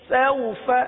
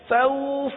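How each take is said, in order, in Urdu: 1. حرف علت مختصر ہے اور نرمی سے ادا ہوتا ہے۔ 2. حرف علت کھینچا ہوا اور لمبا ہے۔ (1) "تو نرمی کس طرح پیدا ہوگی؟" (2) "اگر اس طرح پڑھا سوف جیسے کہ عموماً پڑھا جاتا ہے سوف، تو یہ کھینچ گیا"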